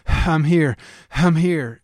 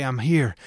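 First: Louder, urgent call of arrival; frantic. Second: Said in the usual way. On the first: Pretend. Preacher imagining Jesus rushing in, louder frantic call. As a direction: announce yourself in a rush. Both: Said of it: "urgently and frantically".

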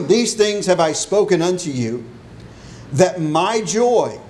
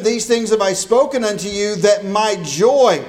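First: Solemn Bible reading; scripture reading. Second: Raised, energetic preaching of the verse; fervent sermon delivery. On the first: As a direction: linger on joy as you read. Reads scripture aloud before sermon. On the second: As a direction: proclaim it to the congregation. Verse requoted in lively preaching. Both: Acted.

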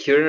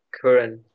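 First: "Curran" said as KYOO-ran; first option for "Curran", KYOO-ran; alternative pronunciation. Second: "Curran" said as KUH-ran; no y glide after the C in "Curran"; second option for "Curran", plain KUH-ran; alternative pronunciation. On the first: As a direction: put a y glide after the C in "Curran". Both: Shown as a demonstration. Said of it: "how do you say his last name?".

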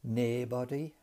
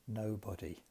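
First: Geordie "naebody" for nobody; Geordie pronunciation. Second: Said in the usual way. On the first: Shown as a demonstration. Teacher quotes the Geordie speaker for students, Geordie accent. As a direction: imitate a Geordie saying "naebody", first vowel as "nay". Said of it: "And he says". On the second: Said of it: "rather than".

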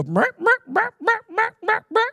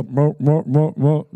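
First: Very high, repeated bleat-like call; shepherd's sheep call. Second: Shepherd's goat call. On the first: Shepherd calling sheep to the right, high imitated call. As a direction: imitate a shrill herding call in quick repeats. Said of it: "one sound for the sheep". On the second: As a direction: imitate a gruff call in short repeats. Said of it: "one sound for the goats". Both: Retold or imitated.

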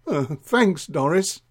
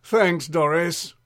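First: Said in the usual way. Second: Slow, mildly exasperated thanks; a touch of weary annoyance, stretched out. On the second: Acted. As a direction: draw the thanks out with strained patience. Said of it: "little exasperated, Drip said".

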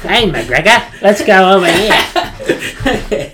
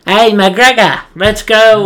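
First: Slow and laughing through it; laughing soldier impression. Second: High, loud call to a buddy; less raspy soldier impression. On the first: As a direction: drag it out while cracking up. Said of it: "Maybe it's not that forced". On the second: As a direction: shout it like a soldier in the game. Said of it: "he's not as raspy".

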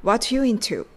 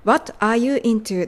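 First: "What you into" said as "wa-chu intu"; "What you" fused with a ch sound, running into "into"; linked, reduced words. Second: Said in the usual way. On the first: Shown as a demonstration. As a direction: swallow "are" so "What you" becomes "whatchu". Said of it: "と聞こえています". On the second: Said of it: "are youがwhatのTと連結して".

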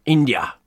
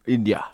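First: Whispered India. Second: Said in the usual way. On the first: Acted. British PM persona explaining samosa origin, whispered India. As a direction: drop to a hush on India.

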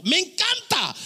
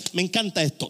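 First: High-pitched burst of delight; real, gleeful outburst; delighted exclamation. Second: Said in the usual way. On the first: Real, not acted. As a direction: exclaim how much you love it. Delighted exclamation repeating the aside.

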